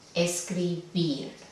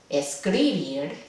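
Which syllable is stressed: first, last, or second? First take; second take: last; second. First: The stress is on the last syllable. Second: The stress is on the second syllable. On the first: The speaker calls it right. "Ahí va el acento, la sílaba tónica" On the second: The speaker calls it wrong.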